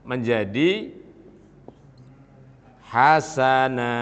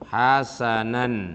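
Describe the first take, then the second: First: The word ends with a drawn-out long vowel. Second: The word ends with a short vowel plus n. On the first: The reader stops on this word. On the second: The reading continues without a stop.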